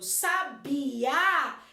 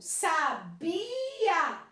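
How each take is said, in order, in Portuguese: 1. A tônica está na última sílaba. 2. A tônica está na sílaba do meio. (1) "muda o som. O A passa a ser mais forte" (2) "No verbo sabia, o bi é mais forte"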